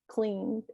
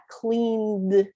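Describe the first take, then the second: First: The final D sound is faint, barely pronounced. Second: The final D sound is strongly pronounced. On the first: The speaker calls it right. "It's just cleaned. It's barely um, enunciated" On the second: The speaker calls it wrong. "It's not cleaned"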